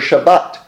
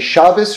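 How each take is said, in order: First: The word ends with a t sound. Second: The word ends with an s sound. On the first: "The T at the end" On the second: "The T at the end, it's the same letter, but whether or not how you pronounce it will vary"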